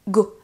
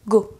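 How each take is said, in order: Both takes have the same delivery.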